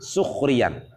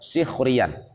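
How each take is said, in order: First: The first vowel is a 'u' sound. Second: The first vowel is an 'i' sound. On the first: It means mocking arrogantly and treating someone as a servant. "Sementara ada yang baca dengan dhammah" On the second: It means mocking someone with words. "Kalau kita baca di kasrah"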